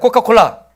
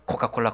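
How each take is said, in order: First: The word is said at a normal pace. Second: The word is said quickly, run together.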